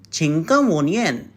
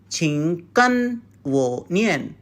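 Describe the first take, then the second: First: The syllables run together and the n fades away. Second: Each syllable is separate, with a full n sound. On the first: The speaker calls it right. "to be natural, you should say in this way" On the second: The speaker calls it wrong. "We do not uh, try to say 请跟我念. It sounds very robotic"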